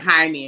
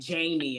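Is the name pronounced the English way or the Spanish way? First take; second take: Spanish; English. First: The name is pronounced the Spanish way. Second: The name is pronounced the English way. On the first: This is the person's real name. The speaker calls it right. "it was like Jaime" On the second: Someone else mispronounced the name. The speaker calls it wrong. "she was saying Jamie"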